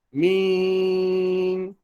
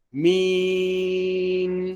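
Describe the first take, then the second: First: The vowel is nasalized early, merging into the n. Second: The vowel stays oral, then the n is nasal. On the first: The speaker calls it wrong. "Dia bersekali ya dengan nun tu dia dalam hidung siap-siap dah. Tak mau ya" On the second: The speaker calls it right. "baru ambil suara nun yang ditekan bawa ke hidung"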